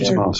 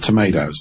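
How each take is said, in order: First: It is said with a British pronunciation. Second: It is said with an American pronunciation. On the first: "We have tomatoes. British" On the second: "So you have tomatoes"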